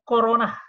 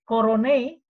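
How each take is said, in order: First: The word is said quickly and run together. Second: The word is said slowly and fully. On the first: "secara pembacaan cepat corona" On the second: "dikatakan sebagai korone"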